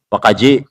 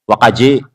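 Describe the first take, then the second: The two takes are said the same way.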